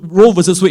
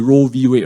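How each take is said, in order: First: The middle word is said in full as 'versus'. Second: The middle word is shortened to the letter 'v'. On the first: "is a proper pronunciation" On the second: "the American likes to short form everything. They just say"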